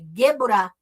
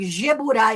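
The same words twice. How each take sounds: First: The word begins with a hard G sound. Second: The word begins with a soft J sound. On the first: The speaker calls it right. "é Geburá" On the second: The speaker calls it wrong. "falando Geburá. Eu, deu dez arrepios, porque não tem som de Já"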